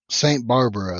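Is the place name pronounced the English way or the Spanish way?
English. The name is pronounced with English sounds. "That's how you would say it in English"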